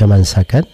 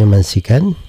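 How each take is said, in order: First: The second vowel is an 'a' sound. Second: The second vowel is an 'i' sound. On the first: It means the shedding of blood in sacrifice. "Ada yang membaca mansakan seperti ini di bacaan kita" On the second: It means a place for slaughtering. "Ada yang membacanya mansikan uh, seperti masjid"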